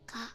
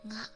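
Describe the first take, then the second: First: It starts with a hard g sound. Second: It starts with a soft nasal ng sound. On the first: "sound really harsh when you pronounce them normally" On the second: "more mellow and soft"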